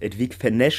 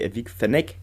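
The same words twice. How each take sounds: First: The name is said with French pronunciation. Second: The name is said with Italian pronunciation. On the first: "wie es so eher die französische Variante wäre" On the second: "die italienische Aussprache von Google war irgendwie"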